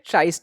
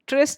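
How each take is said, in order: First: The vowel is a long 'eye' sound. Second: The vowel is a short 'i' sound. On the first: "आपको जैसा उच्चारण करना है कर सकते हो" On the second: "ट्रिस्ट या फिर ट्राइस्ट भी कहते हैं इसको"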